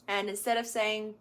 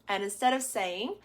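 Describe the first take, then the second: Both takes have the same delivery.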